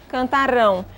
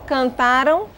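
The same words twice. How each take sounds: First: Cantarão with the stress on the final "rão", falling; stress on last syllable. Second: Cantaram with the stress on "ra", ending in a rise; stress on penult. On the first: Teacher contrasts the sound of cantarão. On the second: Teacher contrasts the sound of cantaram. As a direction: say cantaram leaning on "ra". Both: Shown as a demonstration. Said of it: "O som".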